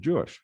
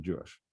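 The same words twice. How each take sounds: First: Surprised echo. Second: Said in the usual way. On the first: Retold or imitated. Colleague surprised by hospital name.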